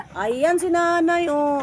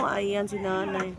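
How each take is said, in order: First: High, loud, drawn-out call; excited sighting. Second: Said in the usual way. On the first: Real, not acted. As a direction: call out that you've spotted her. Spots the old woman, calls out.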